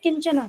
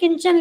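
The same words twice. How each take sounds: First: The word ends in a short a vowel. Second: The word ends in a consonant sound. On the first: "लेकिन यहाँ क्या पढ़ोगे" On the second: "Hindi में किंचन"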